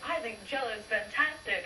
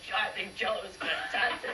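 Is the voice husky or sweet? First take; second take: sweet; husky. First: The voice is light, sweet and clear. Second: The voice is low, rough and husky. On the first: This is how a cute little girl is expected to sound. "instead of saying, like" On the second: This is how she really talked as a child. "I was like ... did you have a sore throat?"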